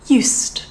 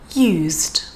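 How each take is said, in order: First: The middle consonant is a voiceless s sound. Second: The middle consonant is a voiced z sound. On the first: It is part of the set phrase for past habits. "with the voiceless S sound" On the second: It is the past tense of the verb. "the first one is the Z sound again"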